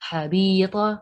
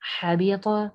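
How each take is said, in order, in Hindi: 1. बीच का i स्वर लंबा किया जाता है। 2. कोई स्वर लंबा नहीं किया जाता। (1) "जेर को खींच दिया" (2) "ऐसे होगा"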